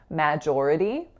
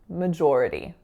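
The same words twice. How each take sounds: First: The first syllable has a full 'a' vowel. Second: The first syllable has a reduced schwa vowel. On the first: The speaker calls it wrong. "that letter A being produced as an A" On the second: The speaker calls it right. "Majority with a schwa"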